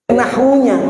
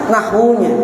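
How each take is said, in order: Both takes have the same delivery.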